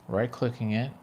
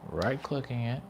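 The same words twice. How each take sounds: Both takes have the same delivery.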